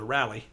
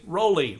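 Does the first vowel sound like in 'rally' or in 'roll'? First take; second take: rally; roll. First: The first vowel sounds like in 'rally'. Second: The first vowel sounds like in 'roll'. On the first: This is how someone else says the name. The speaker calls it wrong. "He likes to call it a rally" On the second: This is how the speaker says the name. The speaker calls it right. "Like you're going to roll over"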